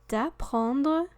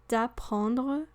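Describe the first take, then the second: The two takes are said the same way.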